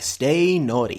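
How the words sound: It is said in a low-pitched voice. "stay naughty and go low"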